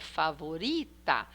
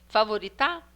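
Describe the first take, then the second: First: The stress is on the second-to-last syllable. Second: The stress is on the final syllable. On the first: The speaker calls it right. "então é favorita. É uri, que é penúltima" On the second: The speaker calls it wrong. "vamos falar a, a última"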